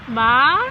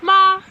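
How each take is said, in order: First: The pitch rises like a question. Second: The pitch stays high and level. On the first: "the second tone is is it's almost like a question" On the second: "you start at the top. It's like a higher pitched like one tone"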